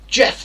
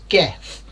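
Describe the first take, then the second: First: The name begins with a soft j sound. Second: The name begins with a hard g sound. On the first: The speaker calls it right. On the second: The speaker calls it wrong.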